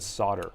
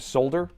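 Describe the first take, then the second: First: The L sound is left out. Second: The L sound is clearly pronounced. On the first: "I've always said solder" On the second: "The L is not silent. ... that's what I have to say"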